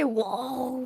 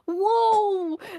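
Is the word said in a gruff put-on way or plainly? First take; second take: gruff; plainly. First: The word is said in a gruff put-on way. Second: The word is said in an ordinary way. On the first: "they say" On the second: "instead of being like"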